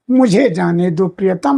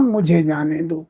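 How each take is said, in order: First: Said in the usual way. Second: Lower, softer echo of मुझे जाने दो; fading echo. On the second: Acted. The wife's soul repeats her plea to the husband, softer and lower. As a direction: let मुझे जाने दो die away softly.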